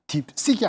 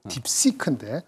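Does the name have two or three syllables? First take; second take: two; three. First: The name ends in a clipped final k sound. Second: The name ends with a separate keu syllable. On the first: The speaker calls it wrong. "딥식이 아니고" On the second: The speaker calls it right.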